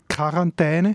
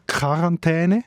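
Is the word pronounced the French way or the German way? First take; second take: German; German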